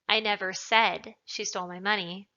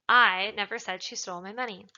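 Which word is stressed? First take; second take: said; I. First: The word said carries the stress. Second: The word I carries the stress. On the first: It was implied but not said. "means that perhaps I implied it, but I didn't say it" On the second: Someone else said it. "implies that somebody else said it"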